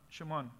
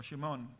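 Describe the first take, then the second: First: "Shimon" said as "Shiman", soft open final a; "Shimon" with a short sh and an a-like last vowel, tried out quietly; Hebrew pronunciation. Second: "Shimon" said with sh and a clear round o, softly; "Shimon" ending in a full o sound, offered as the other option; Hebrew pronunciation. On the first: Teacher testing the Hebrew name for the class, trying a pronunciation. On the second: Teacher giving the class the alternative reading, a trial pronunciation. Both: Shown as a demonstration. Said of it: "la pronunciación aquí fonética es Shemuan".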